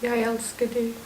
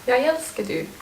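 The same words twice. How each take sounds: First: Deliberately bad line reading; bad acting. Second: Playful half-laughing take; jokingly. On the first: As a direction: say it badly on purpose. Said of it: "Say it badly". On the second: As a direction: toss it off as a joke. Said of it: "Say it jokingly". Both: Shown as a demonstration.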